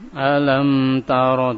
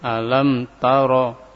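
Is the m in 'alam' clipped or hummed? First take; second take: hummed; clipped. First: The m is held with a light nasal hum. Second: The m is clipped with no nasal hum. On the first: The speaker calls it right. "Jadi diberikan guna alam" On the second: The speaker calls it wrong. "tidak seperti itu. Ini tidak diberikan guna"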